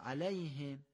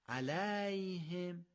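First: The short vowel is kept short. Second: The short vowel is drawn out long. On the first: The speaker calls it right. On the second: The speaker calls it wrong.

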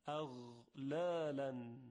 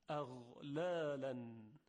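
The two takes are said the same way.

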